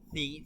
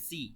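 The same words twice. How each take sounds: First: The first consonant is a thin, soft sound. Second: The first consonant is a plain s sound. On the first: The speaker calls it right. "বলতে হবে সি" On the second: The speaker calls it wrong. "সাজের সি বলে অনেকে, সি বলা যাবে না"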